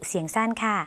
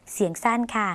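Both takes have the same delivery.

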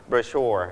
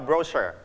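First: Brochure with the stress on -chure; stress on the second syllable. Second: Brochure with the stress on bro-; stress on the first syllable. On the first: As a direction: say brochure as bro-CHURE, weight on the last syllable. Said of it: "ออกเสียงเน้นที่พยางค์ที่สอง". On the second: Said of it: "หรืออาจจะเน้นที่พยางค์แรกก็ได้". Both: Shown as a demonstration.

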